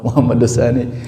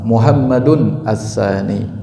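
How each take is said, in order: First: The nunation is dropped and the words are linked. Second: Muhammad keeps its nunation ending 'un'. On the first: This is the simplified local form. The speaker calls it wrong. "orang kita mau gampangin aja" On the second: This is the proper Arabic form. The speaker calls it right.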